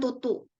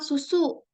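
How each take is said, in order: First: The word begins with a t sound. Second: The word begins with an s sound. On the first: The speaker calls it wrong. "bukan tutu" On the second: The speaker calls it right. "Misal susu"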